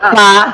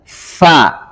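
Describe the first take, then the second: First: The f has no audible stream of breath. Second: The f has a clear stream of breath. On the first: The speaker calls it wrong. "kalau bertemu saja fa ... Ada nggak sifatnya? Ah, salah" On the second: The speaker calls it right. "harus ada hamsnya. Fa"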